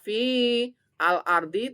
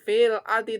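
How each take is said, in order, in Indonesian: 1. Kata-katanya dipisah, artikelnya dibaca terpisah. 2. Kata-katanya disambung jadi satu. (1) "tidak dibaca fi al-ardi" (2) "begitu dimasukkan"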